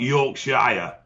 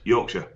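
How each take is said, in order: First: The ending is a full 'shire' sound. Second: The ending is a reduced 'sure' sound. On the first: The speaker calls it wrong. "It's not" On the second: The speaker calls it right.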